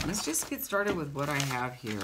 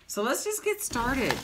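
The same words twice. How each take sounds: First: Said in the usual way. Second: Pitched well higher and a touch louder; upbeat higher call to begin; cheery kickoff. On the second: Real, not acted. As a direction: sing out the start to rally viewers.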